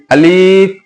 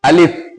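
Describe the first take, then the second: First: अलिफ with its second vowel dragged long; stretched wrong example. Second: अलिफ short and quick, no lengthened vowel; said quickly. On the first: Teacher warning pupils against stretching the letter, drawn out. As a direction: drag out the "li" in अलिफ. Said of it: "खींच के नहीं बोलना है". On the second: Teacher answering how to say it, short and quick. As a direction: keep the "li" in अलिफ brief. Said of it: "जल्दी से बोलना है". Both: Shown as a demonstration.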